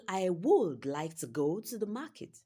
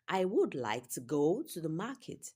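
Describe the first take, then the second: First: Some words get strong stress in a rhythm. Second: The same.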